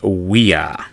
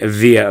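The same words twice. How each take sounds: First: The word begins with a W sound. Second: The word begins with a V sound. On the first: This is the Latin pronunciation. "in Latin, that V would be pronounced a W" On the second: This is the English pronunciation. "of course, in English"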